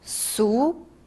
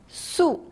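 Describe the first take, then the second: First: The pitch rises from middle to high. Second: The pitch falls sharply from high.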